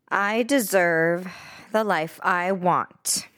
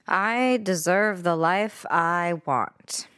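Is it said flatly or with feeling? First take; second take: with feeling; flatly. First: It is said with strong emotional feeling. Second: It is said flatly, without much feeling.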